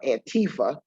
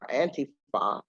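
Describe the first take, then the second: First: It is said the way the media say it. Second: It is said the way the movement says it. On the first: This is how outsiders in the media say the name. The speaker calls it wrong. "as our mispronouncers in the media say it" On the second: This is how the movement itself says the name. The speaker calls it right. "as we say it"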